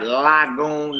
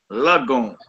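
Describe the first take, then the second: First: Lagoon slowly as LAG-goon, vowel as in 'cat'; wrong full vowel. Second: Lagoon with a slurred 'luh' first syllable; short la sound. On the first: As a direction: demonstrate the mistake, lagoon with an open 'lag'. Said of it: "not lagoon". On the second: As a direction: say lagoon as luh-GOON. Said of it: "It's like a la sound". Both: Shown as a demonstration.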